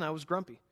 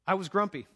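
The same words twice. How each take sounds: First: "grumpy" leaned on at normal level; plain confession landing on "grumpy"; stress on grumpy. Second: "I" punched, a bit higher and louder; confessing with weight on "I"; stress on I. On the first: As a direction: let "grumpy" carry the weight, falling. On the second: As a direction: lean hard on "I" in "I was grumpy". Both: Shown as a demonstration.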